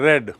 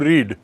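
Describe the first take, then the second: First: The vowel is a short e sound. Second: The vowel is a long ee sound. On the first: It refers to the past. "Second form जो है past, उसमें उसका उच्चारण हो जाता है रेड" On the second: It refers to the present. "Present form"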